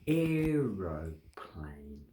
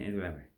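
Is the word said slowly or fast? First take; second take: slowly; fast. First: It is said slowly. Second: It is said fast.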